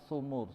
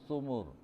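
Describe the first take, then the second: No difference in how they are said.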